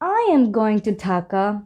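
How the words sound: It is said in a confused tone. The speaker is unsure about going. "শুনে মনে হবে একটু confusing"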